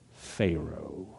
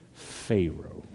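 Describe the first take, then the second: First: The name is said with a contemptuous Southern tone. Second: The same.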